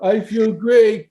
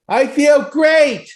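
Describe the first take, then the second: First: It is said with little energy. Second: It is said with strong energy.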